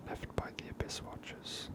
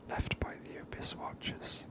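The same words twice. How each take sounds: The two takes are said the same way.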